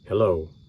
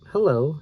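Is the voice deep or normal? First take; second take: deep; normal. First: It is said in a deep man's voice. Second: It is said in a normal voice.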